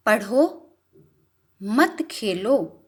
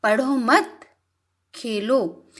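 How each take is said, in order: First: Jeda setelah पढ़ो: "पढ़ो, मत खेलो"; pause after पढ़ो. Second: "पढ़ो मत" together, then a pause before Khelo; pause after मत. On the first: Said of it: "पढ़ने पर जोर दिया जा रहा है". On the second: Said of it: "खेलने पर जोर दिया गया है". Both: Shown as a demonstration.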